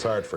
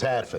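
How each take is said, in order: First: It is said in a local Connecticut accent. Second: It is said in a Boston accent. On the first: "If you're from Hartford, it's Hartford" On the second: "If you're from Boston, it's Hatford"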